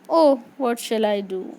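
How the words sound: It is said in a sad tone.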